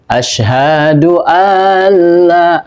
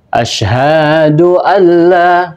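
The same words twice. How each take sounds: First: The vowel in alla is drawn out long. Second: The vowel in hadu is drawn out long. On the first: "alla ini memanjangkan di tasdid, ini juga keliru" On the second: "hadu itu sudah uh, keliru di dalam memanjangkan"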